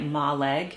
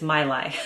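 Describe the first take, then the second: First: The name ends with a hard g sound. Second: The name ends with an open vowel sound. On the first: The speaker calls it wrong. "I have been pronouncing it incorrectly" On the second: The speaker calls it right. "It's My-Lai"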